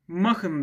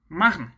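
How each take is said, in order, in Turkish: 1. Düz söylenir, vurgu farkı yoktur. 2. Önce vurgulanır, sonra hızla düşer. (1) "Türkçe olsaydı buna ne derdik? Machen derdik ve hiçbir vurgu farkı olmazdı" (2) "H'den sonra direkt topluyorsun"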